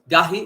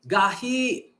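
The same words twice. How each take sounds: First: The vowel is said short and plain. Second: The vowel is drawn out long. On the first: It is hard. "gahi means hard" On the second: It is very hard. "if we lengthen the word by saying gahi"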